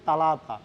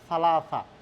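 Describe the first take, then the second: First: The word is said with 't' sounds. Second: The word is said with 's' sounds. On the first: This is the everyday form many people use. The speaker calls it wrong. "আমরা অনেকজনে বলি যে তালাতা" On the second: This is the pure, standard form. The speaker calls it right. "শুদ্ধ উচ্চারণ হবে সালাসা"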